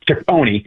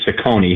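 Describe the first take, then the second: First: The name is pronounced the Italian way. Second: The name is pronounced the Americanized way. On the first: This is the original form of the name. The speaker calls it right. "who should be" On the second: This is the common mispronounced form. The speaker calls it wrong. "They're Americanized"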